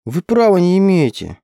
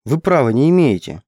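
First: High, louder squeak of protest; a high, indignant little squeal; squeaky protest. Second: A defiant, heated objection; hot protest. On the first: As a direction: squeak it out in outrage. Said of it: "пропищала я". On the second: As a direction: throw it back at him, defiant. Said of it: "вспылила я". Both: A narrator's reading.

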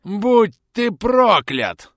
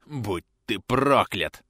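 First: Very slow, high screaming curse; screamed curse. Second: Slow rasping curse; hoarse curse. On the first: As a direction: howl the curse at full force. Dying bandit screams his curse. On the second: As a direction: rasp the curse out slowly. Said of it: "прохрипел бандит". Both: Acted.

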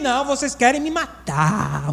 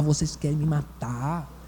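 First: Said in the usual way. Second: Quiet lower repeat. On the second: Retold or imitated. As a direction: drop low and soft, slowly. Repeats the complaint. (repetido baixinho e grave)

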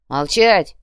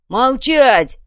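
First: Said in the usual way. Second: Loud sharp command; barked order. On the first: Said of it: "велел Гнилич". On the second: Acted. Durich barking at the wild crowd, loud. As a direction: bark it at the crowd. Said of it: "прикрикнул Дурич".

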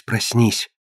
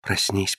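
First: A soft whisper, a bit more pressing. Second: A much softer whisper into his ear. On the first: Phryne presses Alan again, soft urgent whisper. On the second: Phryne whispers into Alan's ear, very soft whisper. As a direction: breathe it right into his ear. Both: A narrator's reading. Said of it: "прошептала на ухо Алану".

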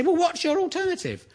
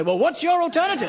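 First: Mock smug challenger. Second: Mock smug reply. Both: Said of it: "They say".

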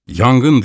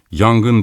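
First: Shouting fire. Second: A slightly raised alarm call; crowd shouting fire. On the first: The doctor throws the smoke bomb and raises the alarm, shouting. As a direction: raise the alarm with one word. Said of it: "diye bağırmaya başladım". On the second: The watching crowd takes up the cry of fire, mild shout. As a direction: echo the cry like the whole crowd. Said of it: "diye bağırmaya başladı". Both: A narrator's reading.

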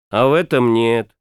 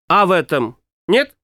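First: Этом stressed, lower and falling; flat statement. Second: Нет lifted into a question; questioning rise. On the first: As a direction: answer it flatly, leaning on этом. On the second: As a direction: ask it, rising on нет. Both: A narrator's reading.

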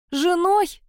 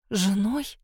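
First: Shrieked much higher in outrage; screaming. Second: Said in the usual way. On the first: A narrator's reading. Mar screams at her kidnapper's proposal, outraged shriek. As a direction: scream the word back at him. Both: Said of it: "закричала Мар".

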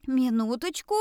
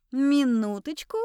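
First: A firm call, rising at the end; mildly loud call. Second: Insistent, drawn call with rising end; louder repeated call. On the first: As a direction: call for a moment, only a little raised. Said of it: "громко произнесла". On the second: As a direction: insist a little more loudly. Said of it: "повторила". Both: A narrator's reading.

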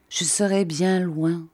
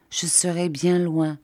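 First: Slow repeat. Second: Said in the usual way. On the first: Acted. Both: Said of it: "répéta-t-il lentement".

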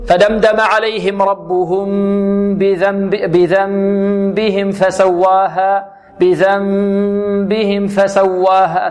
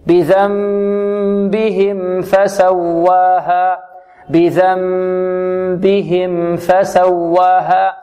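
First: Slow recitation with the meem of "بذنبهم" fading into the fa of "فسواها"; faulty tajweed demo, meem of "بذنبهم" swallowed before "فسواها"; meem disappearing before fa. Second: Slow chant, final meem of "بذنبهم" clearly sounded before "فسواها"; meem given its measure. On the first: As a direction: chant "بذنبهم فسواها" with the final meem wrongly hidden. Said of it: "البعض يقول ... تختفي". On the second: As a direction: recite "بذنبهم فسواها" with the meem flowing at medium length. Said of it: "الصحيح أن تعطيها قدرها من التوسط". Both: Shown as a demonstration.

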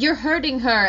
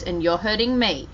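First: A mild retelling of an upset protest; a hint of Liam's upset protest. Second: Understated gentle mom answer; gentle reply. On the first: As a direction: imitate the upset boy, pitched a bit up. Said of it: "he grabs her and it's like". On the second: Retold or imitated. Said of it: "she kind of just gently goes".

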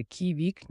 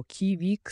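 First: Tender, slightly high bird call. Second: Mildly angry, higher-pitched bird call. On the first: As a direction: call it as if in love. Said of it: "ніжним тоном". (ніжним тоном) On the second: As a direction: throw it out as a challenge. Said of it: "сердито, як виклик чи з ненависті". (трохи сердито, як виклик) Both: Shown as a demonstration.

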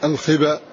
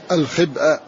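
First: "الخبأ" as al-khaba, no glottal stop; hamza dropped. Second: "الخبأ" with a glottal stop before the final a; hamza pronounced. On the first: Teacher showing students the eased word, hamza dropped in "الخبأ". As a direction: glide through "الخبأ" without its hamza. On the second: Teacher showing students the full word, hamza pronounced in "الخبأ". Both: Shown as a demonstration. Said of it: "وهكذا".

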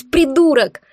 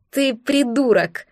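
First: "придурок" screamed high and loud, falling at the end; furious yell. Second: Slow, weary "Ты придурок", stress on ты; heavy exasperated sigh. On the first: Woman screaming "придурок" at Dar in fury. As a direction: spit out "придурок" at full volume. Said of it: "В праведном бешенстве заорала я". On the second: Woman exhales "Ты придурок" at Dar after laughing. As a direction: breathe out "Ты придурок" slowly, worn out. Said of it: "Тяжко выдохнула я". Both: A narrator's reading.

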